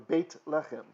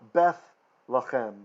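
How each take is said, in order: First: The first word ends with a 't' sound. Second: The first word ends with a 'th' sound.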